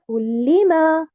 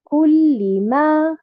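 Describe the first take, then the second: First: The 'li' syllable carries the stress. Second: The 'li' syllable carries no stress. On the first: The speaker calls it wrong. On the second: The speaker calls it right.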